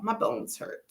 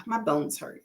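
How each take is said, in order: First: Whispered, pained aside; hushed repeat. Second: Said in the usual way. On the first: Real, not acted. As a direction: murmura cansada: «My bones hurt» casi sin voz.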